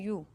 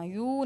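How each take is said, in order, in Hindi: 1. स्वर छोटा और जल्दी वाला है। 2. स्वर लंबा खिंचा हुआ है। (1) "जल्दी से पढ़ना है" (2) "खींच के नहीं पढ़ना, यू नहीं पढ़ना"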